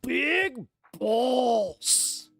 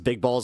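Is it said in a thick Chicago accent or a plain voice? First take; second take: Chicago accent; plain voice. First: It is said in a thick Chicago accent. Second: It is said in the speaker's ordinary accent.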